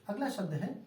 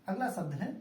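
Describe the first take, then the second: Both takes have the same delivery.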